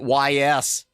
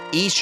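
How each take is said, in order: First: The name is spelled out as two letters. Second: The name is said as one word, like 'east'. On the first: The speaker calls it wrong. "I used to pronounce it Y S" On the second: The speaker calls it right. "So much so that I actually pronounce it right"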